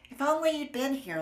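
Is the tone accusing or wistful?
wistful. It sounds sad and longing.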